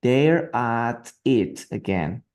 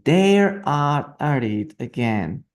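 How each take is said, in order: First: Very slow, drawn out; slower model reading. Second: Slow, careful read aloud; slow model reading. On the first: Teacher repeating the line very slowly for students. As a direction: stretch every word for the learners. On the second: Teacher modelling the line slowly for students. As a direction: spell it out slowly for the class. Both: Shown as a demonstration.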